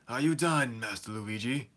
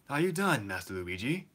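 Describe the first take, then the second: First: The voice sounds disgruntled and displeased. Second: The voice sounds happy and expectant. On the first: He is annoyed with the person addressed. The speaker calls it wrong. "he sounds like he's kind of disgruntled with him" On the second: He is eagerly awaiting the answer. The speaker calls it right. "sound a little bit happier and like expectant"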